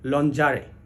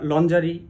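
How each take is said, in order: First: The word ends with an 'ay' sound. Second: The word ends with an 'ee' sound. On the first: The speaker calls it right. "আসলে এটির সঠিক উচ্চারণ হলো লঞ্জারে" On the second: The speaker calls it wrong. "আমরা বেশিরভাগ সময়ই এটির উচ্চারণ ... এরকম করে থাকি"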